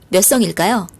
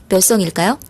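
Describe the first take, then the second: Both takes have the same delivery.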